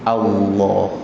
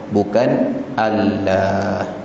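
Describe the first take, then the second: First: The 'l' sound is thick and heavy. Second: The 'l' sound is thin and light. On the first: The speaker calls it right. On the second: The speaker calls it wrong. "Jangan dinipiskan"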